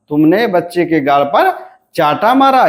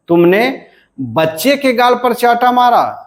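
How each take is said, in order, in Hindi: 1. बलाघात चाटा पर पड़ता है। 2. बलाघात बच्चे पर पड़ता है। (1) "यहां पर बलाघात कहां पर है, चाटा पर।" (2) "हम जब बच्चे के पर बलाघात देते हैं"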